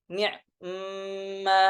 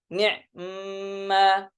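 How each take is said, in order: Both takes have the same delivery.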